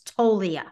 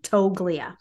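First: The G sound is silent in the name. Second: The G sound is pronounced in the name. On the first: The speaker calls it right. "but it's Tolia" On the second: The speaker calls it wrong. "it's so hard to look at it and not say the G"

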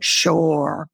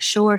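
First: The R at the end is overpronounced and drawn out. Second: The R at the end is said normally. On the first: "she's like sure. Like the R, it's the extra R" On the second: "instead of saying just like sure"

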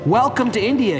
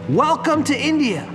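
First: It is said at a normal speaking volume. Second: It is yelled loudly, like a roar.

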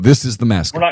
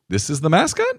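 First: It sounds firm and final, like an order. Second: It sounds unsure and questioning, like a suggestion. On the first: The speaker is announcing a decision as the boss. The speaker calls it right. "I'm the freaking boss. I'm an authority. I'm a dictator" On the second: The speaker is asking for approval. The speaker calls it wrong. "Not, hey"

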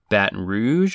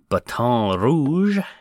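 First: The name is pronounced in a plain, ordinary way. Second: The name is pronounced in a fancy, pretentious way.

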